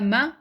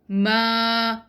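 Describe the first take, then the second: First: The vowel is short, held one count. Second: The vowel is long, held two counts. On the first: "meme fatha ma is single count" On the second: "followed by empty alif is ma, which is double count"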